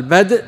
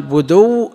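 First: "بدء" as bad', vowelless d closed by a glottal stop; hamza, silent dal vowel. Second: "بدو" as buduww, u on the dal and a long w; no hamza, doubled waw. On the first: Teacher contrasting two readings, "بدء" with sukun and hamza. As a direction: end "بدء" on a hamza straight after the d. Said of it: "روي بالهمز مع سكون الدال". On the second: Teacher contrasting two readings, "بدو" with damma and doubled waw. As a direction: stretch the final w of "بدو", no glottal stop. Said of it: "وبغير همز مع ضم الدال وتشدد". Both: Shown as a demonstration.

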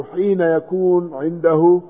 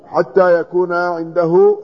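First: حين said as ḥīna, long ī then n; careful ḥīna for the variant حين; misread variant. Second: حتى said slowly as ḥattā, with doubled t; careful, slow ḥattā in حتى; correct reading. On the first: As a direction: read حين with y and n in place of tt. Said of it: "وهو تصحيف". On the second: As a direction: slowly read out حتى with a clear tt. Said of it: "فبدلا من أن يقول إيش؟". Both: Shown as a demonstration.

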